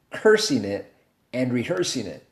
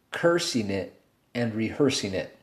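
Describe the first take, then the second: No difference in how they are said.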